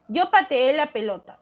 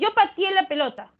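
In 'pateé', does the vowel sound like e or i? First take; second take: e; i. First: The vowel in 'pateé' sounds like e. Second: The vowel in 'pateé' sounds like i. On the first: "Eso debería ser lo correcto" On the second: "cambia el sonido de la E por la I"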